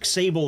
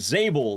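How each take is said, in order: First: The name begins with an eks sound. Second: The name begins with a plain z sound. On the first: The speaker calls it wrong. "I've been calling you Xable this whole time" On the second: The speaker calls it right. "like the X is silent"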